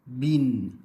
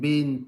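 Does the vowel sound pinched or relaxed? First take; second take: relaxed; pinched. First: The vowel is said relaxed and open. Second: The vowel is said tight and pinched. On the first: The speaker calls it right. "dia mesti in, bin, tin" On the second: The speaker calls it wrong. "sengit-sengit tu tak mau"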